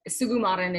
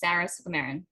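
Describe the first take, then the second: First: The surname is said in its fuller, traditional way. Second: The surname is said in a simplified, anglicized way. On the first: This is the name's original pronunciation. The speaker calls it right. "is like actually how you say the name" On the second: This is how she usually says her own name. The speaker calls it wrong. "I'm probably saying that wrong too"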